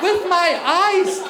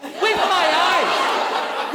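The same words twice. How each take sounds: First: Slow emphatic repeat. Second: Slow punchline. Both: Real, not acted. Comic repeated punchline.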